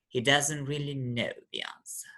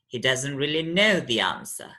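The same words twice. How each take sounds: First: The pitch falls from low on know. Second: The pitch falls from very high on know. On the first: "And now with the low drop" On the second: "pronounced with the high drop"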